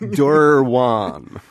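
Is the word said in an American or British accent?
American. The word is said in an American accent. "I'm going to say it maybe in a little bit more American English"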